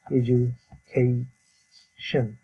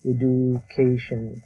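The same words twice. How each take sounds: First: "এডুকেশন" broken slowly into e-ju, kay, shn; teacher's slow "e-joo... kay... shn" for "এডুকেশন"; correct IPA pronunciation. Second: "এডুকেশন" with a hard d, "e-du-kay-shon"; the local way, "এডুকেশন" with d, no j sound; common Bangladeshi pronunciation. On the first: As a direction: model "এডুকেশন" syllable by syllable with a j sound. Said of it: "উচ্চারণটা হবে". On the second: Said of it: "আমরা বলে থাকি". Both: Shown as a demonstration.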